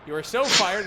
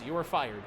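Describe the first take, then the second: First: "so" hit louder; stress on so. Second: Said in the usual way. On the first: Shown as a demonstration. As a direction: punch "so" in "You are so fired".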